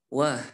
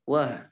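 First: The syllable ends with an audible breath escaping. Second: The syllable ends with an audible breath escaping.

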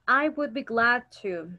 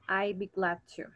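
First: The words 'I would' are said in full. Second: The words 'I would' are contracted to 'I'd'.

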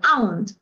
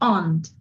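First: The two vowel letters are sounded separately. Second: The two vowel letters merge into one vowel. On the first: The speaker calls it wrong. "Muchas veces pareciera, ¿no?, que se leería o se pronunciaría como aunt" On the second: The speaker calls it right. "La U casi casi como que se junta con la A y hace una sola vocal"

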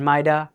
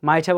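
First: It is said in an American accent. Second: It is said in a British accent. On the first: "might have বলবো American অ্যাকসেন্টে" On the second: "might have বলবো ব্রিটিশে"

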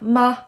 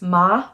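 First: The syllable is short, light and unstressed. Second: The pitch rises from middle to high. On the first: "Short and sweet and quiet" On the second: "the second tone is going up"

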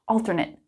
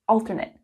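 First: It is pronounced as the adjective form. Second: The same.

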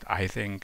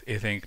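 First: The name is said with an English pronunciation. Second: The name is said with a German pronunciation. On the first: The speaker calls it wrong. "not Ising, as you can hear from English-speaking people" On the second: The speaker calls it right. "Mr. Ising was a German, so I believe it's more appropriate to pronounce his name as Ising"

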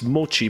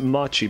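First: The first vowel sounds like 'oh'. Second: The first vowel sounds like 'ah'. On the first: The speaker calls it right. "The pronunciation is Mochi. It's Mochi" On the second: The speaker calls it wrong. "I always pronounce it Machi"

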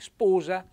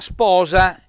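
First: The O vowel is closed. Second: The O vowel is open. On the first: "la O diventa chiusa" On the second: "In italiano la mia sposa aperto"

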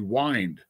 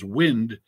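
First: The vowel is long, rhyming with find. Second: The vowel is short, rhyming with pinned. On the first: The speaker calls it right. "It's actually wind" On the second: The speaker calls it wrong. "often mispronounced as wind"

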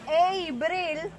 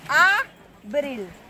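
First: The first vowel sounds like an English 'a'. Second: The first vowel is a pure open 'a'. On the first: The speaker calls it wrong. "It's not A-bril" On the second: The speaker calls it right. "Always A"

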